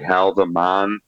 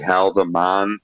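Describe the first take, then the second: First: The name is said with a guessed Dutch pronunciation. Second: The same.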